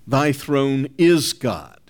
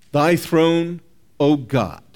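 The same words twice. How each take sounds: First: Deliberate, slow stress on "is". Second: "Thy throne" held up, pause, then "O God" falling; vocative address. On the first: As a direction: land on "is" before a slow "God". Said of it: "They change the vocative". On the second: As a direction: set off "O God" as direct address. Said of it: "exactly is what it expresses". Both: Shown as a demonstration.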